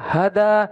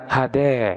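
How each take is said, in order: First: The final vowel is an open a sound. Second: The final vowel is tilted toward an e sound. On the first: "boleh dibaca hada" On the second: "boleh dibaca dengan bacaan imalah"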